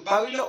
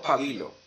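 First: "pábilo" stressed on the PA; stress on first syllable. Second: "pabilo" stressed on the BI; stress on middle syllable. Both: Shown as a demonstration. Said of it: "¿Cómo dices tú".

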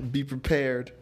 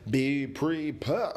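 First: Said in the usual way. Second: "Be prepared" said slowly, rising at the end; slow, drawn out. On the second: Shown as a demonstration. Podcaster repeats the advice slowly for emphasis.

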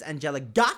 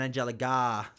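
First: Angelica ending on a short, punched "gah"; short final syllable. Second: Angelica ending on a long, open "gaah"; long final syllable. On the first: Explaining there are two names, Angelica with a short ending. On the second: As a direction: stretch the last syllable of Angelica. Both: Shown as a demonstration. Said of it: "'cause there's Angelica and Angelica".

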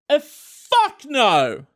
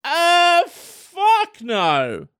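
First: Drawn out, slow uh fuck no; slow blunt refusal. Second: High uh then a falling fuck no; high then blunt. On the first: Showing listeners how to refuse pudding, slow and blunt. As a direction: let it hang, then fuck no. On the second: Repeating the demo refusal, high then flat. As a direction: jump up high, then drop it. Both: Shown as a demonstration. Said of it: "Just like that".

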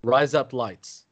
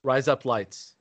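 First: Slow careful try. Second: Said fast. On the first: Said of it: "No, rise up lights". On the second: Friend saying it fast to hear razor blades. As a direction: rush the words together. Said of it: "so say it fast". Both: Shown as a demonstration.

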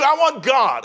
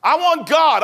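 First: "I want God" again, a bit less loud, still fervent; repeated declaration. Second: Loud, higher cry of "I want God"; fervent declaration. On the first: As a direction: restate "I want God" firmly. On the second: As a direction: proclaim "I want God" with everything. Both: Acted.

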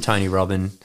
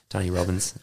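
First: Robbins said as "Robbin", dropping the final s; slip on the name. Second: Robbins said in full with a clear buzzing z at the end, "Robbinz"; careful redo, landing the final s of Robbins as a z; corrected name. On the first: Host reading out a quote's author, slips: Robbins said as "Robbin". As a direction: Robbins clipped to "Robbin" with no s at the end. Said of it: "He doesn't need that S anyway". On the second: Host correcting his own slip on the author's name: Robbins said with its final z sound. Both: Real, not acted.

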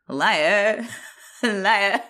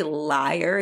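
First: Imitated accent, LIAR with the final r dropped; odd accent on liar. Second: Said in the usual way. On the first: Co-host mimics how Craig says it, odd accent. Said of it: "He says, like". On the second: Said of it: "he doesn't say liar".

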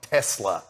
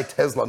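First: "Tesla" with a hissed S, TESS-la; S sound in Tesla. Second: "Tesla" with a buzzed Z, TEZ-la; Z sound in Tesla. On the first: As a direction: say "Tesla" with an unvoiced S in the middle. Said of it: "not Tesla". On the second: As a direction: say "Tesla" with a voiced Z in the middle. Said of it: "you say Tesla, not Tesla". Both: Shown as a demonstration.

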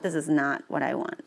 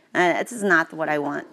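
First: This hit first and hardest, the rest softer; stress on this. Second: Not pushed hardest; stress on not. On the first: Repeating the complaint, stress on this. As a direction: open on the word this. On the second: Frustrated with the reading, stress on not. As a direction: lean on the word not. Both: Shown as a demonstration.

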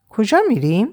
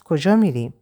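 First: کجا raised, rising in surprise, a bit higher; surprised. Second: Said in the usual way. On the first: Acted. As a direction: echo the question back in disbelief, کجا lifted. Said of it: "با تعجب زیر نظرم گرفت". (تکرار با تعجب، کجا با لحن بالارونده) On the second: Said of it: "با تعجب".

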